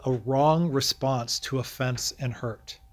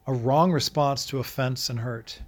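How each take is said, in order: First: Measured, emphatic title with weight on wrong; slow title reading. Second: Said in the usual way. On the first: Shown as a demonstration. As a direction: read the title slowly and deliberately. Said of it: "So verses sixty through sixty-two, we might entitle".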